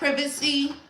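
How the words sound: It is said in a British accent.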